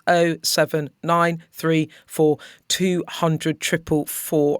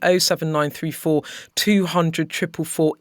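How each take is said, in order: First: The number is read out more slowly. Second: The number is read out very quickly. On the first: The speaker calls it right. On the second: The speaker calls it wrong.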